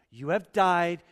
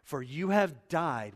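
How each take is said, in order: First: "you have died" said louder and higher, leaning on "died"; stress on died. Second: Said in the usual way. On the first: Shown as a demonstration. Pastor pressing the verse on the church, emphatic "died". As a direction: repeat "you have died" and hit "died" hard. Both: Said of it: "watch this".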